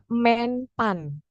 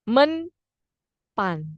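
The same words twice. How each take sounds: First: The first vowel differs from the e in menteri. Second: The first vowel matches the e in menteri. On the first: The speaker calls it wrong. "lazim kita ucapkan" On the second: The speaker calls it right. "seharusnya kan Menpan"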